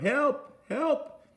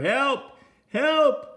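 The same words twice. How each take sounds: First: It is said quietly. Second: It is said loudly.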